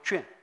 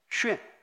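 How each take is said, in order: First: The word is pronounced juan. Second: The word is pronounced xuan. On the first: The speaker calls it wrong. "不读卷" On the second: The speaker calls it right. "在建筑学上不读卷，读旋"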